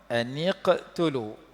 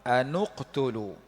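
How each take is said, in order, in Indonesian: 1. Vokal setelah n adalah i. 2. Vokal setelah n adalah u. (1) "Dikasrahkan nun" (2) "Dhammah nun"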